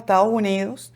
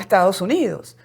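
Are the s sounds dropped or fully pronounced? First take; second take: dropped; fully pronounced. First: The s sounds are weakened or dropped. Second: Every s sound is pronounced fully. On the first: The speaker calls it wrong. "Por eso decimos" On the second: The speaker calls it right.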